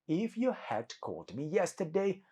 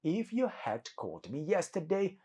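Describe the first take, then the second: First: The words "you had" are said in full. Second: The same.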